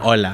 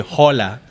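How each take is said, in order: First: The word begins directly with the vowel sound. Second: The word begins with an audible H sound. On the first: The speaker calls it right. "You say" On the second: The speaker calls it wrong. "you don't say hola"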